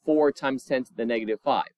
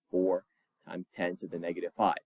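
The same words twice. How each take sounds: First: Said in the usual way. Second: A low, quick aside to yourself; quiet fast repeat. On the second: Shown as a demonstration. Teacher repeating the answer to students under their breath, quick and low. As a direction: drop much lower and softer, rattle it off quickly. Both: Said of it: "restating the answer a second time".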